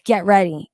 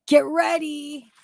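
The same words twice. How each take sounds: First: Said in the usual way. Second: Slower, higher "Get ready"; drawn out. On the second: Shown as a demonstration. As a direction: stretch the words teasingly.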